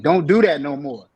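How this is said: It is said in a hard, firm voice. "in a harder voice so they understand"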